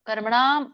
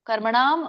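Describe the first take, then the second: No difference in how they are said.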